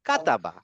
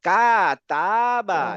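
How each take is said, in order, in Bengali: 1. স্বরগুলো ছোট, একসাথে দ্রুত বলা হয়। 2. স্বরগুলো টেনে লম্বা করে বলা হয়। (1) "কাট কাট একসাথে" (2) "আমরা টান দিব না যে কাতাবা, এরকম না"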